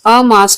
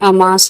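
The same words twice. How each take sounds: First: A short break separates the first sound from the rest. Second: The word flows as one unit without a break. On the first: The speaker calls it wrong. "अमास नहीं है" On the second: The speaker calls it right. "ये अमास मतलब एक में ही है"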